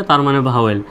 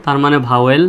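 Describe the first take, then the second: No difference in how they are said.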